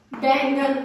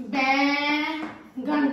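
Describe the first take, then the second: First: Said in the usual way. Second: बैंगन stretched very slowly, nasal ऐं held; drawn-out nasal. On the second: Shown as a demonstration. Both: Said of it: "उसके बाद देखो".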